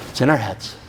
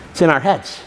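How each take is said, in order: First: "It's in our heads" repeated lower and much softer. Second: Said in the usual way. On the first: Shown as a demonstration. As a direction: let it sink in, quietly.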